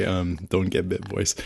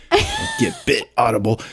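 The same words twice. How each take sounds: First: Said in the usual way. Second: "Don't get bit" squeaked very high; high squeaky voice. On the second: Shown as a demonstration. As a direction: jump way up into a squeak.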